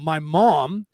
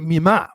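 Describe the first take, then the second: First: It is said in plain, standard pronunciation. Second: It is said in the family's strong accent.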